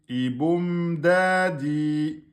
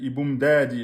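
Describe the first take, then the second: First: The m is held long before moving on. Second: The m is cut short and rushed. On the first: The speaker calls it right. "Iboum, un temps et demi" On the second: The speaker calls it wrong. "Vous êtes parti trop vite"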